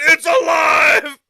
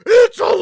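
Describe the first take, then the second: First: Slow drawn-out triumphant yell; imitating a crazed inventor; mock mad scientist shout. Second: High, loud mad scientist yell; imitating a crazed inventor; mock It's alive shout. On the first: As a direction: bellow it like a movie mad scientist. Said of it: "He looked at the damn screen and said". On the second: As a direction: shout it like a horror-movie inventor. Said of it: "He said".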